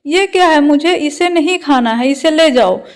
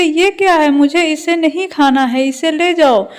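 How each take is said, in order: First: Louder, sharper scolding of the same refusal; angrier refusal. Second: A touch of irritated scolding, read lightly; angry refusal. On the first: Mother-in-law refusing the khichdi again, louder and angrier. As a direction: snap it out like a stubborn elder. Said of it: "तो सास गुस्से से". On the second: Mother-in-law refusing the khichdi, mildly angry. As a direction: push the plate away in mild annoyance. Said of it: "सास गुस्से से". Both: Acted.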